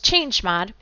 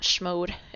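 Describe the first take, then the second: First: The word does not begin with a plain 'sh' sound. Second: The word begins with a plain 'sh' sound. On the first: The speaker calls it right. "It's chmod" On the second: The speaker calls it wrong. "like to call it shmode, but it's not shmode"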